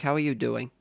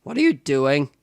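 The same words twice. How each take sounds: First: Said in the usual way. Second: Accidental crack in the voice on a question. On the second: Real, not acted. Asking assistant what she is doing, voice cracking. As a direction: voice cracks upward mid-question. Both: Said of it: "Hello, voice crack".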